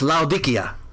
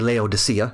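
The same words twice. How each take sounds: First: The name is said the original local way. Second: The name is said the usual English way. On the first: "but it's Laodicea. is probably the right way to say it" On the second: "we say Laodicea in English"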